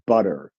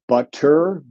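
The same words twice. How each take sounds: First: The middle consonant is a quick tongue tap. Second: The middle consonant is a clear voiceless t.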